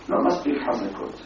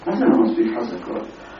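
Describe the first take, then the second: First: Softly voiced retold grumble; understated complaint. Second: Retold puzzled challenge; questioning echo. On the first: Customer tells shoemaker about his shoes, understated complaint. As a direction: let the complaint drop away softly. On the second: Shoemaker answers the customer's complaint, questioning echo. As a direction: throw the complaint back as a question.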